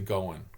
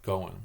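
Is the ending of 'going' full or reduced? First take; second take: reduced; reduced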